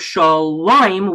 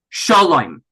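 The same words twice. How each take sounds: First: The stress is on the last syllable. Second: The stress is on the first syllable. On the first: "instead of shalom" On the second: "the trop moved to the second to last syllable"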